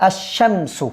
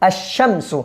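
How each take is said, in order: The two takes are said the same way.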